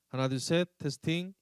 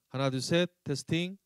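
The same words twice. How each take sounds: No difference in how they are said.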